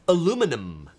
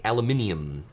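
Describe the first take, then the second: First: Said the American way, with four syllables. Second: Said the British way, with five syllables. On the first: "in the U S A is aluminum" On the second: "If we're in the U K, it would be aluminium"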